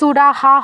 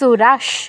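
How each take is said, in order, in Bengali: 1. এটি একটি পূর্ণ ha ধ্বনি দিয়ে শেষ হয়। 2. এটি একটি অর্ধ sh ধ্বনি দিয়ে শেষ হয়। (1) "এটা কিন্তু সুরাহা হবে না" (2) "কি হবে সুরাস"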